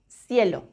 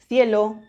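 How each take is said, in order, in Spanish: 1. La c suena como una s. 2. La c suena como th en inglés. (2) "se pronuncia C, C, en la mayor parte de España"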